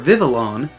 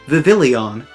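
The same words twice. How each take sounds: First: No extra vowel sound follows the L. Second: An extra 'ee' vowel follows the L. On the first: The speaker calls it right. "whether it's Vivillon or Vivillon" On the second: The speaker calls it wrong. "there is no I after the L's"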